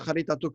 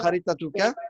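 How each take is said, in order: First: The word ends without its final vowel. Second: The word ends with its final vowel. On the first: The sentence ends here. "on ne prononce pas le- la dernière voyelle" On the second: The sentence continues after it. "la phrase, elle continue"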